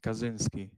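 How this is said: The name is said with an American pronunciation. "Americans say Kaczynski"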